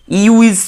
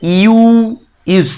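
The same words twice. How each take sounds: First: यू इज said again at normal speed, high; यू इज repeated at speaking pace; quicker repeat. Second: यू इज drawn out very slowly, high and loud; यू इज sounded out slowly like a teacher; slow sound demo. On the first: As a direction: repeat यू इज briskly after the slow take. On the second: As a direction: stretch यू इज syllable by syllable. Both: Shown as a demonstration. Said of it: "जो pronounce है वो भी".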